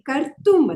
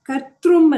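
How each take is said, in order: First: The ending has no 'r' sound, as kartum. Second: The ending has an 'r' sound, as kartrum. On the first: The speaker calls it right. "ಕರ್ತುಂ ಅದು" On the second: The speaker calls it wrong. "ನೀವು ಕರ್ ಕರ್ತೃಂ ಅಂದ್ರಿ"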